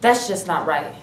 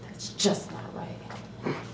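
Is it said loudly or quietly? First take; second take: loudly; quietly. First: It is said loudly and forcefully. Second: It is said quietly and softly.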